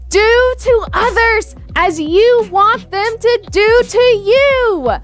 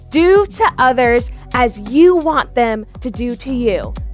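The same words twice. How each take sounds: First: It is said as loudly as possible. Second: It is said at normal volume.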